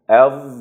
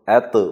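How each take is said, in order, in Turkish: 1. Son ünsüz içeride ağır ve boğuk. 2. Son ünsüz düz, hafif bir d. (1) "səsi içəridə ağız boşluğumuzda boğuruq" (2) "əd bu şəkildə deməyiniz yanlış olar"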